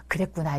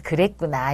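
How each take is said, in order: First: Mock restrained 그랬구나, much softer and falling; forced calm through anger. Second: Mock restrained 그랬구나 with a falling end; forced calm through anger. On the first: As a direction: say 그랬구나 softly while seething. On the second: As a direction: grit out 그랬구나 from memory. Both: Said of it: "눈에서 막 레이저가 쏴지는 거예요".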